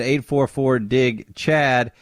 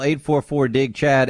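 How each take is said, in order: First: Slow, spelled-out phone number; slow repeat. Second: Said in the usual way. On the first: Shown as a demonstration. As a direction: say the number again slowly.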